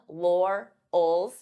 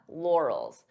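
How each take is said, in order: First: The two syllables are said separately. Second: The two syllables are joined smoothly. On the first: "divide the sounds until you're comfortable with each sound" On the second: "and then you can pronounce it as one"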